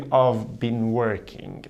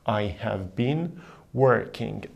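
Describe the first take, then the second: First: I have is shortened to one syllable. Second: I have is said as two full words.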